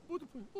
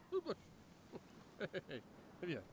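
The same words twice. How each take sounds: First: Said in the usual way. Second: Hushed call. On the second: Acted. Calling the dog again, hushed.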